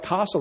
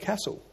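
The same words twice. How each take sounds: First: It is said with a South Australian accent. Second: It is said with a Victorian accent.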